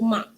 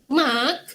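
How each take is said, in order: First: The word ends with a glottal stop. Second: The word ends with a released k sound. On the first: The speaker calls it right. "kita sebut mak" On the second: The speaker calls it wrong. "kita tak sebut mak"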